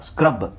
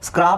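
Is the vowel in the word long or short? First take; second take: short; long. First: The vowel is a short 'uh' sound. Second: The vowel is a long open 'aa' sound. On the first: The speaker calls it right. "ಇಲ್ಲ, ಸ್ಕ್ರಬ್" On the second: The speaker calls it wrong. "ಸ್ಕ್ರಾಬ್ ಅಂತ ಹೇಳ್ತೀವಾ? ಇಲ್ಲ"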